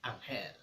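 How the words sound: The name is said with Spanish pronunciation.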